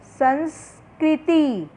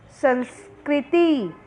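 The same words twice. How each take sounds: First: संस्कृति slow, स and क blended together; slow joined reading. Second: संस्कृति again slowly with स and क joined; slow joined reading. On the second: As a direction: say संस्कृति once more, slowly. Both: Shown as a demonstration. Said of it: "स और क दोनों साथ में बोलना है".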